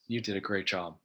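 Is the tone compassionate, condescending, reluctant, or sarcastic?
compassionate. It is said in a compassionate tone. The speaker cares about the listener.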